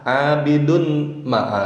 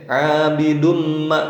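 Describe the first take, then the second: First: The n is pronounced separately before ma. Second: The n merges into a nasal m sound. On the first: The speaker calls it wrong. "salah jelas" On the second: The speaker calls it right. "ini benar"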